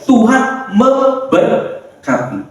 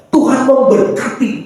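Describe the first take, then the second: First: "Tuhan memberkati" very slowly, broken into pieces; drawn-out, deliberate "Tuhan memberkati"; underlined emphasis. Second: Said in the usual way. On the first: Shown as a demonstration. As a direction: underline "Tuhan memberkati" with pauses between syllables. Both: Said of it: "garis bawah ya".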